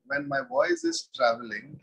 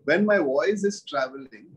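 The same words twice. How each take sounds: First: "voice" lifted high, rising at the end; high questioning teacher voice. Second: "my" leaned on, falling close; teacher stresses "my" in "my voice"; emphatic teaching repeat. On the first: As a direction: ask it up high on "voice". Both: Shown as a demonstration.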